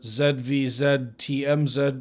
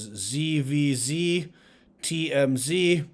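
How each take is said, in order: First: The letter Z is said as zed. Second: The letter Z is said as zee.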